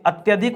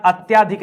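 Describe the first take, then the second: First: अत्यधिक with a short "tya"; correct short middle vowel. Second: अत्याधिक with a long "tyaa"; wrong long middle vowel. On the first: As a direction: keep the middle of अत्यधिक brief, "at-ya-dhik". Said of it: "अत्यधिक होता है". (अत्यधिक में छोटा "त्य") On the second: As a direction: stretch the middle of अत्याधिक, "at-yaa-dhik". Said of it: "अत्याधिक नहीं होता". (अत्याधिक में लंबा "त्या") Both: Shown as a demonstration.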